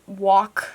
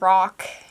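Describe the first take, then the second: First: It is said with a childlike, nonstandard accent. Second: It is said with a standard American accent. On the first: This is how the word was said in childhood. The speaker calls it wrong. "j'avais un accent différent. Je disais les choses comme walk for rock" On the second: This is how the word is said correctly. The speaker calls it right. "j'ai dit rock"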